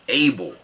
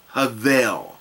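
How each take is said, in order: First: It starts with a vowel and has a B. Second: It starts with an H and has a V. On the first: The speaker calls it wrong. "We've been saying his name as if it's pronounced like the word A-B-L-E" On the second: The speaker calls it right. "In Aramaic, the name is pronounced Havel"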